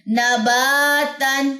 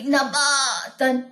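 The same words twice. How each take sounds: First: نباتن with the aa flowing freely and fading into air, very slow; correct flowing madd. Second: نباتن with the aa forced and stretched from the stomach, very slow; wrong strained madd. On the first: Teacher demonstrates the right flowing long aa, slow and smooth. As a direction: let نباتن glide smoothly and vanish in the mouth. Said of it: "like this". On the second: Teacher shows students the wrong strained long aa, dragged slowly. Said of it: "تو یہ چیز غلط ہے". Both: Shown as a demonstration.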